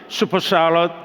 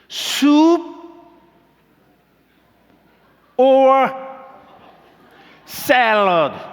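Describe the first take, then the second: First: The words are run together quickly. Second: The words are said slowly and separately.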